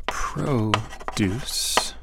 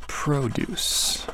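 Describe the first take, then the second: First: Whispered produce, noun stress PROduce, slow; whispered to self. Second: Produce said softly, proDUCE, verb stress; quiet proDUCE while writing; murmured verb form. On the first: Teacher whispering while writing, quiet. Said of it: "I'll try to write it". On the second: Teacher sounding out the verb, soft. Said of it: "Oh, and the verb produce". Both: Shown as a demonstration.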